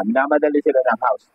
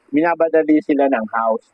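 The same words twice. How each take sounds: First: Said in the usual way. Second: "minabadali" said with a b in place of the m; tongue slips on "minabadali", b sound mid-word. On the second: Real, not acted. (nadulas ang dila sa "minabadali")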